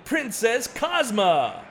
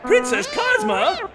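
First: Slow booming fighter introduction; ring announcer intro. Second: Startled, high and loud question; surprised. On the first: Acted. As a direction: draw out the name for the crowd. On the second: Real, not acted. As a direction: caught off guard by her sudden arrival. Announcer startled by her arrival.

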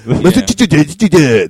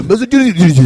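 First: "Massachusetts" dragged out slowly as "Masatutute", loud, in a mock Japanese accent; slow mock Japanese mispronunciation. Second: "Massachusetts" as a high, loud "Masatunu" in a mock Japanese accent; mock Japanese mispronunciation. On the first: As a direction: stretch "Massachusetts" into a struggling, stuttering "Masatututetute". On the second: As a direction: blurt "Massachusetts" fast as a garbled "Masatunu". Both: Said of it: "to be able to say Massachusetts".

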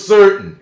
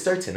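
First: "certain" high and loud, leaning on the E; leaned-on vowel. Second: Said in the usual way. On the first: Shown as a demonstration. Showing local speech, "certain" with its vowel leaned on. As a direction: punch "certain", sitting in the first vowel. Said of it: "still will sit in those certain words". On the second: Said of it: "the word is certain".

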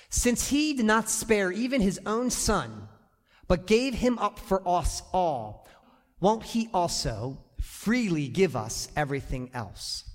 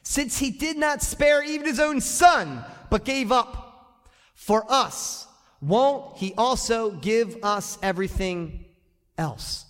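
First: Scripture reading. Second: Louder scripture. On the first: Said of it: "The Bible says it like this". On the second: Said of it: "Read that". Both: Shown as a demonstration.

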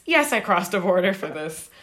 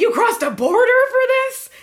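First: Retold firm answer in an everyday pitch; matter-of-fact retort. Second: Mock-astonished, high and loud question; incredulous. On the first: Tattooed fan answering the shocked promoter, matter-of-fact. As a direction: answer the disbelief evenly, as if obvious. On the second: Promoter to fan who drove eight hours, incredulous. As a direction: imitate a dumbfounded promoter, pitch shooting up. Promoter's disbelief at her long drive.

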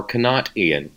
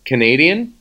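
First: "Canadian" said as "Ca-NOT-ian"; "Canadian" as kuh-NOT-ee-un, falling at the end; punned pronunciation. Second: Said in the usual way. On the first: Real, not acted. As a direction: put a clear "not" in the middle of "Canadian". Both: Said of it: "Canadian or not?".

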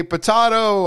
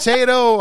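First: "potato" said puh-TAH-toh, slow and raised; AH pronunciation. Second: "potato" said puh-TAY-toh, high and loud; long-A pronunciation. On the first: Host jokes about differing speech, "potato" as puh-TAH-toh. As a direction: stretch "potato" with an AH in the middle. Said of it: "I say potato". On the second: Host jokes about differing speech, "potato" as puh-TAY-toh. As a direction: sing out "potato" with an AY in the middle. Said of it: "you say potato". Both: Shown as a demonstration.

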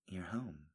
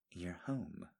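First: Soft, shy and sheepish; sheepish murmur. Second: Soft, drowsy and sleepy; sleepy murmur. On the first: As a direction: say it a little embarrassed, softly. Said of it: "she said sheepishly". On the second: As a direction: murmur it as if just waking. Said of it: "she said sleepily". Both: Acted.

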